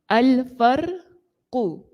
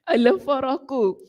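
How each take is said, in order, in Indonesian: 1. Huruf r langsung diikuti q. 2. Huruf r diikuti vokal a. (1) "huruf ra itu kita baca dengan mati" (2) "Ra hidup"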